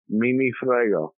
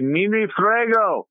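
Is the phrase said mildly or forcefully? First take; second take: mildly; forcefully. First: The phrase is said in a mild, casual way. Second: The phrase is said in a strong, forceful way. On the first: The speaker does not care. "If I say it like that, that means I don't care" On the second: The speaker does not care at all, defiantly. "that means I don't give a fuck"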